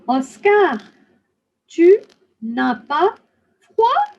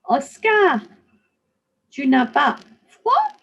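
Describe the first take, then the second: First: The phrase is spoken at a slow pace. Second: The phrase is spoken at a faster pace. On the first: "I'm going to say this slowly" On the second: "let's try to say this a little faster now"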